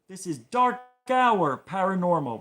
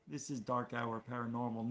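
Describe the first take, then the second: First: It is said loudly, with lots of energy. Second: It is said plainly, with little energy. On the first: The speaker calls it right. "You have to say it with gusto" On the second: The speaker calls it wrong. "You can't just say"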